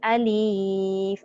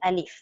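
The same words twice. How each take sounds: First: The word is drawn out long. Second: The word is said short and brief. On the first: The speaker calls it wrong. "Jangan kita baca meleret" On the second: The speaker calls it right. "Alif sahaja"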